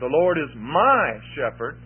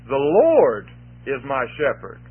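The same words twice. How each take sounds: First: The word 'my' carries the main stress. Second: The word 'Lord' carries the main stress. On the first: The relationship is a personal one. "we could talk about that personal relationship between me and I" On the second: It is the Lord, not anyone else, who shepherds. "Because it's the Lord who's my shepherd"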